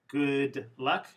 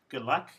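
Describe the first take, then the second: First: The D sound at the end of good is pronounced. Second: The D sound at the end of good is dropped.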